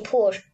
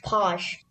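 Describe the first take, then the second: First: "push" said with the rounded oo vowel of push; wrong pronunciation. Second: "posh" with a short open o like in pot; right pronunciation. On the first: Child actor showing the wrong word to avoid, "push" with a rounded oo. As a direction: say "push" the American way, lips rounded. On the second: Child actor showing the coached Cockney word, "posh" with an open o. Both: Shown as a demonstration. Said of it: "don't say push".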